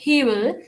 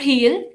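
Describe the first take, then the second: First: Both words are said in full with w. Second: The words are contracted without the w sound. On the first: "pause लेके विल ना बोलें" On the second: "आप डब्ल्यू इसमें skip कर सकते हैं"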